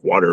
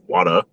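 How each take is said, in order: First: The R sound at the end is pronounced. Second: The R sound at the end is dropped. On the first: "instead of like water" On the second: "Boston accents. They just don't pronounce their R's"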